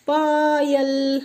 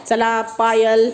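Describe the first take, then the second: First: Long, high sing-song call of the name; slow lilting call; drawn-out call. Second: Said in the usual way. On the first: Real, not acted. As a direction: stretch the name out to call her over. Teacher calling child forward.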